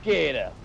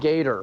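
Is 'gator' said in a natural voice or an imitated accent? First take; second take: imitated; natural. First: It is said in an imitated regional accent. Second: It is said in the speaker's own natural accent. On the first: "that became the voice" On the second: "That's how I pronounce it"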